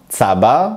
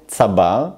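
First: צבר stressed on opening TSA; stress on first syllable. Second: צבר slow, weight on final BAR; stress on second syllable. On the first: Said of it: "אני מדגיש את ההברה הראשונה". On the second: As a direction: stretch and stress the end of צבר. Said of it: "אני מדגיש את החלק השני". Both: Shown as a demonstration.

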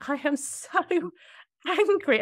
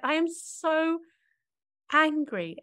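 First: High, laughing, half-mocking "I am so angry". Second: Much higher, light retelling of naming anger; high mock "so angry". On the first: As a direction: laugh through the words, pitch way up. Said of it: "I was like". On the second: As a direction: say it up high, half-joking. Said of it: "I remember just saying".

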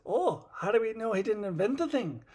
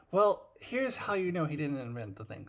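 First: Higher, lightly put-on Scotty; a hint of Scotty wondering aloud; mild Scotty voice. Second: Said in the usual way. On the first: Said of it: "And Scotty says". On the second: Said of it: "Scotty says".

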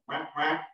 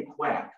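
First: Short, repeated duck quacks; real duck call. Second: Said in the usual way. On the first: Shown as a demonstration. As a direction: imitate a real duck's quack. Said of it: "They don't just say quack". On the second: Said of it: "in the cartoons, they say quack".

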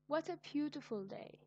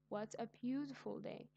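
First: High, bright exclamation about the day; higher pitched joyful exclaim; delighted exclamation. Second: Said in the usual way. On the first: Shown as a demonstration. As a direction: sing out your delight at the day. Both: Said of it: "shows strong feelings".

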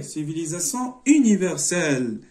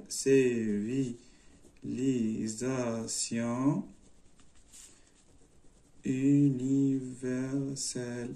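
First: Said in the usual way. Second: CIVILISATION UNIVERSELLE very slow, low and soft; drawn out. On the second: Shown as a demonstration. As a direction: stretch CIVILISATION UNIVERSELLE syllable by syllable. Says answer while writing it.

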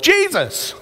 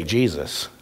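First: High, eager shout of the answer; kids yelling. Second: Low, soft, simple reply; much lower and softer answer; quiet answer. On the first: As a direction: call it out like a room of excited kids. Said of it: "Every one of the kids yelled". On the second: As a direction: say it calmly, like a child who just knows. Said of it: "They can say". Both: Retold or imitated.

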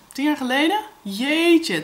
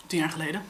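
First: Higher and louder, disbelieving rise; surprised. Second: Said in the usual way. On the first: Real, not acted. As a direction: realise with a jolt how long ago. Shocked at how long ago. (verbaasd, ongelovig)

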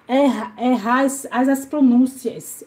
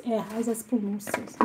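First: Said in the usual way. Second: Much softer, muttered to herself; quiet puzzled mutter. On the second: Shown as a demonstration. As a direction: mumble it under your breath, puzzled. Puzzling over a chat message.

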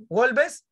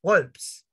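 First: "Wolves" as two syllables, WOL-bes, higher and questioning; wrong pronunciation. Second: "Wolves" in one syllable, wolps, pitched lower; corrected pronunciation. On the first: Acted. Student asking the teacher, "Wolves" mispronounced as wol-bes. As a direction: ask "Wolves" with a Spanish-style "bes" ending. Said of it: "Profesor, ¿y cómo se pronuncia?". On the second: Shown as a demonstration. Teacher correcting a student, "Wolves" said as one-syllable wolps. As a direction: say "Wolves" with a tight "ps" ending, falling. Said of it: "No, Luana".

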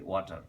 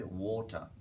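First: "ওয়াটার" with an open "wa" first vowel; wrong pronunciation. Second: "ওয়াটার" with a rounded "wo" first vowel; correct pronunciation. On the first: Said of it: "which is wrong". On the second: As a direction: say "ওয়াটার" as "WAW-tha", vowel like "or". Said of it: "আমাকে বলতে হবে". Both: Shown as a demonstration.

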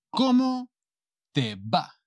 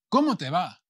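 First: Slow "Cómo... te va", broken by a pause; palabra por palabra. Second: Said in the usual way. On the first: Shown as a demonstration. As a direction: model "Cómo te va" in separate, drawn-out pieces. Teacher models phrase in pieces. (palabra por palabra, despacio y con pausa)

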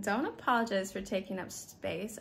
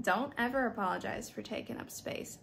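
First: Said in the usual way. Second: "ever" leaned on and falling firm; stress on ever. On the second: Real, not acted. Telling the gym woman firmly, stress on "ever". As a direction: punch "ever" in "Don't ever apologize".

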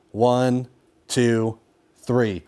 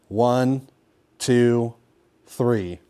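Both takes have the same delivery.

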